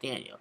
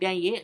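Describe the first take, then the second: First: The name is said like the boy's name Daniel. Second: The name is said like the girl's name Danielle. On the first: It is the boy's actual name. The speaker calls it right. "It's it's just Daniel" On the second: It sounds like a girl's name. The speaker calls it wrong. "she kept pronouncing it as if it was Danielle"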